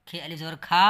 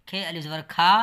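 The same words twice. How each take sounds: The two takes are said the same way.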